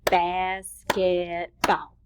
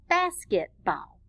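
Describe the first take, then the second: First: BASKETBALL very slow, in three beats, BAS-KET-BALL; clapped-out syllables. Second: Said in the usual way. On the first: Shown as a demonstration. Teacher clapping syllables with children, BASKETBALL in three slow, even beats. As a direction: stretch and separate each syllable of BASKETBALL. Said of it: "let's clap out the word basketball". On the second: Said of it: "clap out the word basketball".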